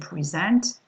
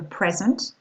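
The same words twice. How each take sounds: First: The stress is on the second syllable. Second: The stress is on the first syllable. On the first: It is a verb. "to present, présenter" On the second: It is a noun. "a present, un cadeau"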